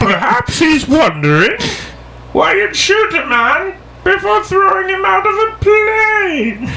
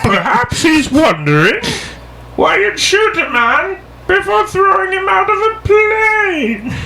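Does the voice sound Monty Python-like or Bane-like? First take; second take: Monty Python; Monty Python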